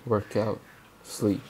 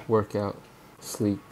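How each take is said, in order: Both takes have the same delivery.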